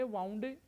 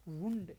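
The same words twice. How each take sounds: First: वाउंड with an "ow" diphthong; वाउंड as "wownd"; wrong pronunciation. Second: वुंड with an "oo" vowel; वुंड with oo in place of ow; correct pronunciation. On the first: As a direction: say वाउंड rhyming with "sound". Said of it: "वाउंड नहीं बोला जाएगा". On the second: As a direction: say वुंड like "woond". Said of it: "ये बोला जाएगा वुंड". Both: Shown as a demonstration.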